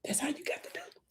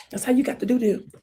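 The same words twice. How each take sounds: First: Unvoiced hush; soft whispered advice; whispered aside. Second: Said in the usual way. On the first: Real, not acted. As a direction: whisper it like a secret tip.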